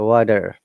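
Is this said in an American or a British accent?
American. American accent, with a D-like T and an R. "The T sounds like D and R is there"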